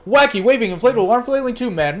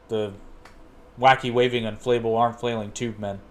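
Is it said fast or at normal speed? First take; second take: fast; normal. First: It is said really fast. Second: It is said at a normal speed.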